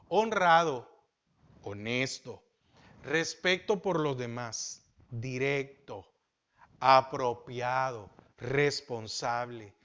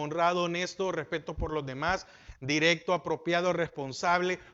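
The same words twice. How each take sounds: First: The list is said more slowly. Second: The list is said at normal speed.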